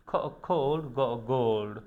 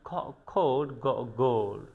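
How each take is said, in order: The two takes are said the same way.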